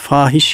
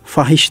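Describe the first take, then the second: First: The first vowel a is held long. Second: The first vowel a is kept short. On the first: The speaker calls it right. "Bakınız fahiş yanlışlar dedim" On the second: The speaker calls it wrong. "Fahiş diyebilirdim değil mi? Çünkü orada yani F'den sonra elif var, uzatılacak"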